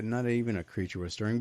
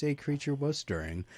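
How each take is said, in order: First: "not EVEN a creature", with the tune lifting at the end; stress on EVEN. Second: "A creature was stirring", landing on "A", falling at the end; stress on A. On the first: Host correcting the film title's saying, stress on "even". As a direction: quote the usual phrase, leaning on "even". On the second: Host explaining the twisted title, stress on "a". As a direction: make "A" the contrasting word. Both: Shown as a demonstration. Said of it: "but in this case".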